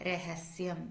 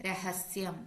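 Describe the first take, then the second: The two takes are said the same way.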